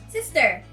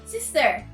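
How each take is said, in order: First: It is said in an American accent. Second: It is said in an American accent.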